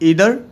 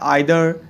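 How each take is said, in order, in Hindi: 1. पहला स्वर 'ee' जैसा सुनाई देता है। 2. पहला स्वर 'eye' जैसा सुनाई देता है।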